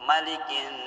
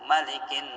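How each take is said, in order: Both takes have the same delivery.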